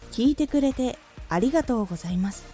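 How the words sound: There is a pause after the first phrase. "点や丸で区切ることが多いと思いますが"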